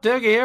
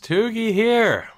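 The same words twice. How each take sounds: First: It is said in a cheerful, upbeat tone. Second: It is said in a gloomy, subdued tone. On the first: Everything is going well. The speaker calls it wrong. "positivity and happiness" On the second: The team has just suffered a painful loss. The speaker calls it right. "I'm sorry that I'm having to begin this episode in such a tone"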